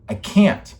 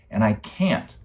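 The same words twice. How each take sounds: First: Louder and higher, breaking out; desperate outburst. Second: Said in the usual way. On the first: Real, not acted. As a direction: cry it out in frustration. Repeats 'I can't' in despair.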